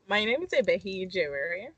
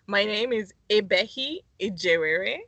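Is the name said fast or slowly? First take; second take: fast; slowly. First: The name is said very fast. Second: The name is said more slowly.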